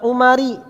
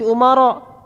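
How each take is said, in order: First: The name ends with an i vowel. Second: The name ends with an a vowel. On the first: The speaker calls it wrong. "bukan umari" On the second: The speaker calls it right. "tanda jarnya dengan fathah"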